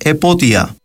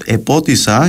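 First: No consonant comes before the last vowel. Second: An s sound comes before the last vowel.

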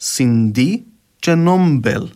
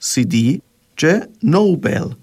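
First: The d and b have a nasal before them. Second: The d and b have no nasal before them. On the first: This is the Cypriot Greek pronunciation. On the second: This is the Standard Greek pronunciation.

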